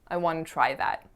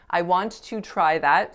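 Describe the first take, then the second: First: 'Want to' is blended into one reduced form. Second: Both words of 'want to' are said in full. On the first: The speaker calls it right. "It's much more common to say, I wanna" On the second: The speaker calls it wrong. "Want to is not a natural way to say that. ... Sounds very cumbersome"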